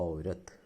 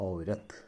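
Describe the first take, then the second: No difference in how they are said.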